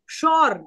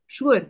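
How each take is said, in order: First: Sure is said with one vowel, like shore. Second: Sure is said with two vowels, like shoo-er. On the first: This is how speakers with other accents say it. "ज्यांच्याकडे वेगवेगळे accent असतात ते म्हणतात शॉर" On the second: This is how we Indians say it. "आपण शुअर म्हणतो"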